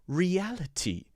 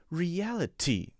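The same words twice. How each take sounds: Both takes have the same delivery.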